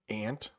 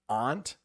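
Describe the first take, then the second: First: It sounds the same as the insect word. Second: It sounds different from the insect word. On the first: "You might see or hear it ant, like the bug" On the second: "where I live in New England, that's how most people will say it"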